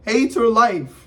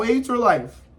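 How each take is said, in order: First: "hate her life" louder, slower, with "hate" punched; emphatic, disgusted "hate her life"; stressed hate. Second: Said in the usual way. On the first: Shown as a demonstration. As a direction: lean hard on "hate" and drag it out. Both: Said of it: "stress repeat".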